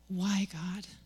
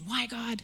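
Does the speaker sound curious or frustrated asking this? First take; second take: curious; frustrated. First: It sounds curious and sincere, like a real question. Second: It sounds frustrated and complaining, like a protest. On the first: The speaker genuinely seeks the purpose behind the situation. The speaker calls it right. "start seeking purpose" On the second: The speaker resents the situation and blames God. The speaker calls it wrong. "instead of shaking our fists and thinking why"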